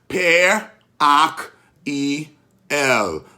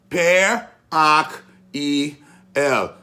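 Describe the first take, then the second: Both takes have the same delivery.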